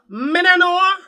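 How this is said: It is said in a Jamaican accent.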